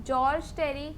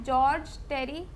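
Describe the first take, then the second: Both takes have the same delivery.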